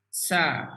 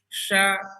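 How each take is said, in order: First: The sh sound is thin, from mid-tongue. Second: The sh sound is thick, made too far back. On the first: The speaker calls it right. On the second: The speaker calls it wrong.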